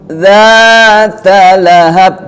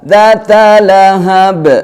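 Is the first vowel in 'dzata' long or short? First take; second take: long; short. First: The first vowel of dzata is drawn out long. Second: The first vowel of dzata is cut short. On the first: The speaker calls it right. "diingat itu ada mat tabi'i dzata lahab" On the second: The speaker calls it wrong. "Jadi enggak dzata lahab"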